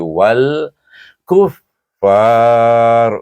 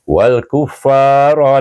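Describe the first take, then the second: First: The word ends on a bare final consonant. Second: The word ends with a short final vowel. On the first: The reciter stops after this word. "penting kita sukunkan ra" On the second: The reciter continues into the next word. "kalau kita menyambung kita baca dengan asli"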